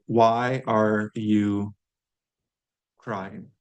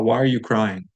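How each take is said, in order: First: Slow, drawn-out why are you crying with a long pause before crying; slow model question. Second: Said in the usual way. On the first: Shown as a demonstration. Teacher slowly models the question for learners. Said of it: "so if I wanna ask". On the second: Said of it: "if I wanna ask that".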